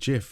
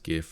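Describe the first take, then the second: First: It begins with a soft J sound. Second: It begins with a hard G sound. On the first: This is how some other people say it. The speaker calls it wrong. "some people actually pronounced it GIF, and it's always sounded wrong" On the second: This is how the speaker and everyone they knew said it. The speaker calls it right. "always pronounced it as GIF"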